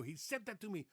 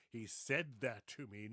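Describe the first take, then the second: First: "He said that to me" high, with "set dat"; "He said that to me" in a mimicked Dutch accent; Dutch-accented pronunciation. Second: Slow "He said that to me" with proper d and th; correct English pronunciation. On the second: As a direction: say "He said that to me" slowly in careful English. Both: Shown as a demonstration. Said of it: "They didn't say".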